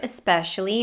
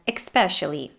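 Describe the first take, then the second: First: No K sound comes before the S. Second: A K sound comes before the S. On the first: The speaker calls it right. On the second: The speaker calls it wrong.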